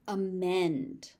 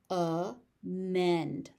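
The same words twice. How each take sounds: First: Said in the usual way. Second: "Amend" split slowly into two syllables; overpronounced. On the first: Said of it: "I will say the word normally". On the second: Shown as a demonstration. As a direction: say "Amend" with a gap before the "mend". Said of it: "I will overpronounce it".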